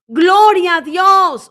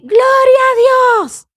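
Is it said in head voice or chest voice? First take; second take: chest voice; head voice. First: It is said in a firm chest voice. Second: It is said in a high head voice.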